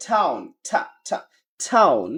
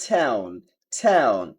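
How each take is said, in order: First: British "টাউন" starting on open AH; British accent. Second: American "টাউন" starting on AE, falling; American accent. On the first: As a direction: say "টাউন" as TAH-oon. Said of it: "British ইংলিশে বলে". (British উচ্চারণে) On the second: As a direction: say "টাউন" as TAE-oon. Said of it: "America বলে". (American উচ্চারণে) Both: Shown as a demonstration.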